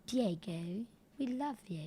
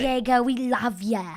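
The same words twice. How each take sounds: First: Soft, quiet fake British accent; gently hammed-up British accent. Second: Louder Boston attempt slipping into British; wobbly mock British accent; botched British accent. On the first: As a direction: put on a hushed, bogus British accent. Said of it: "a fake British accent". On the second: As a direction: try Boston but land on a British accent. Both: Shown as a demonstration.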